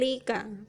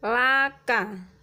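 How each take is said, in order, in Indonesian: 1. Vokal pertama adalah bunyi i tertutup. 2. Vokal pertama adalah bunyi a terbuka. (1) "bukan lika" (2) "lamnya dibaca la"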